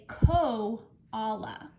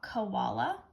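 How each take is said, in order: First: The first vowel is a full, clear O. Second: The first vowel is a weak schwa. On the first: It helps to remember the spelling. "say it a little bit funny to help me. I like to say koala" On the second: It is the usual everyday way. "a lot of times we just say it with a schwa"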